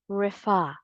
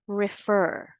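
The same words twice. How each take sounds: First: "refer" as rih-FAH, final r dropped; British pronunciation. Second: "refer" as rih-FUR, final r sounded; American pronunciation. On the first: Teacher reviewing the other option, British "refer", rih-FAH. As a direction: stress a drawn-out open FAH in "refer". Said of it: "The second syllable is stressed". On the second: Teacher reviewing the correct word, American "refer", rih-FUR. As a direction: stress the second syllable of "refer", keep the r. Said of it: "the correct pronunciation of this word is". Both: Shown as a demonstration.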